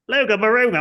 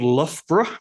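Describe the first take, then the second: First: The name is said with hard G sounds. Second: The name is said without any G sounds. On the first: The speaker calls it wrong. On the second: The speaker calls it right.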